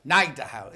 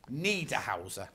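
First: "Niederhauser" said as NYE-der-howzer; first syllable as NYE. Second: "Niederhauser" said as NEE-der-howzer; long EE opening "Niederhauser"; first syllable as NEE. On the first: Presenter trying the surname another way, "Niederhauser" with a NYE start. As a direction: open "Niederhauser" with an EYE vowel. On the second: Presenter reading the author's surname, "Niederhauser" with a NEE start. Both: Shown as a demonstration. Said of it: "Is it Nieder or Nieder".

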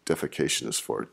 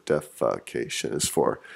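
First: Said in the usual way. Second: "Defecation" broken into four separate syllables; lower, "Defecation" said syllable by syllable; counting syllables. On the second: Shown as a demonstration. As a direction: sound out "Defecation" one syllable at a time. Recounts syllables of the word.

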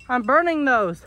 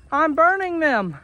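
First: Said in the usual way. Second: "burning" higher and drawn out; slow, high, pleading stress on "burning"; insistent repeat. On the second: Real, not acted. Owner telling goats the limbs are firewood, "burning" stretched high in protest.

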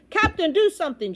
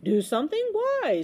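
First: High, loud urgent plea; shouted. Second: Breezy question leaping high; smiling. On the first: Boy begs the captain to act, shouting. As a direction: shout for action. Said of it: "shouted Bartholomew". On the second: Unbothered captain answers the boy, smiling. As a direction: ask with a carefree smile. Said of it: "smiled the captain". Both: A narrator's reading.

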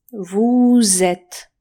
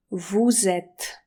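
First: "Vous" stretched long and loud; drawn-out VOUS. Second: Said in the usual way. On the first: Shown as a demonstration. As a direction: hold the vowel of "Vous", then glide into "êtes". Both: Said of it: "jak ja przeciągam".

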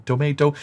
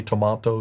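First: Tomato with an "ay" in the middle; American pronunciation. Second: Tomato with an "ah" in the middle; British pronunciation. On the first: Showing how vowels differ by country, American pronunciation of tomato. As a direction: say tomato as "tuh-MAY-toh". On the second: Showing how vowels differ by country, British pronunciation of tomato. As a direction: say tomato as "tuh-MAH-toh". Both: Shown as a demonstration.

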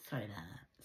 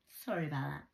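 First: Lower, softer sarcastic sorry; lower mock apology. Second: Said in the usual way. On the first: Vlogger mock-apologising to viewers, lower and softer. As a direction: drop the voice to fake contrition. Repeats apology in varied voices.

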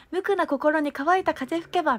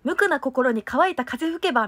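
First: Slower, higher, every mora spaced out for the group; group echo of drill. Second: Crisp, over-enunciated stage recital of a lyric line; a louder solo lead line in a diction drill. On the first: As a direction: lead the group through it, carefully articulated. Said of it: "その後みんなで続いて". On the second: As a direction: spit out every syllable like a warm-up drill. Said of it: "ろれつとか滑舌の練習めちゃくちゃしてた". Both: Shown as a demonstration.

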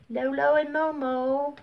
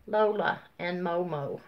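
First: Lolo with o sounds: LOH-loh and MOH-moh; misreading Lola as Lolo; misread name. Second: Lola said LOH-luh, ending in uh; fixing the name to Lola; corrected name. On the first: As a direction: Lolo read as LOH-loh before correcting. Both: Real, not acted.

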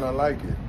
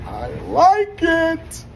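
First: Said in the usual way. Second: Very high, loud and slow; drawn-out squeal. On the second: Real, not acted. Rapper pleased with the video shoot, drawn-out high squeal. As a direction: stretch it out in a delighted squeal.

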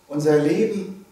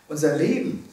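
No difference in how they are said.

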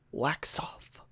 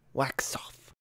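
First: Breathy whisper of wax off. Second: Wax off whispered, almost breathless. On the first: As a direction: whisper it like a calm sensei. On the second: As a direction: let it fade into a whisper. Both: Retold or imitated. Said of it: "an iconic scene from The Karate Kid".

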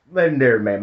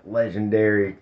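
First: Legendary said louder and higher; admiring emphasis on legendary; stress on legendary. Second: Said in the usual way. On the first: Shown as a demonstration.

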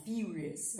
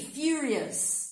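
First: "Furious" with a "fi" opening, low and soft; corrected pronunciation. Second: "Furious" with a clear "fi" at the front; sound demo. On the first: Teacher correcting the "fu" version, "Furious" softly with "fi". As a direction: start "Furious" as "fee", spoken low. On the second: Teacher showing students the "fi" sound, "Furious" pronounced carefully. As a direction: stretch the first syllable of "Furious" as "fee". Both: Shown as a demonstration. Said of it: "Som de fi".

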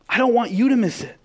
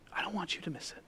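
First: Urgent pulpit cry; impassioned plea. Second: Soft, quiet plea to miss nothing; quiet and earnest; gentle plea. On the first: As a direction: cry it out to the whole room. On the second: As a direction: say it gently, almost under the breath. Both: Shown as a demonstration.

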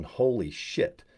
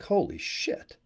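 First: Drawn-out, slowed, hushed disbelief; slow awed holy shit. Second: Sudden high-pitched gasp of disbelief, but softer; stunned holy shit. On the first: Pretend. Imagining hitting diamond live online, slow stunned awe. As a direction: savour it slowly, dazed. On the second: Retold or imitated. Telling viewers about his payday, high astonished exclamation. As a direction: shoot the pitch way up in shock. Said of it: "and I'm like".

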